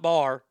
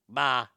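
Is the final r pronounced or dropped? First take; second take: pronounced; dropped. First: The final r is clearly pronounced. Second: The final r is dropped, Boston style. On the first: The speaker calls it wrong. "Not bar" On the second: The speaker calls it right. "the letter R does not belong in their alphabet"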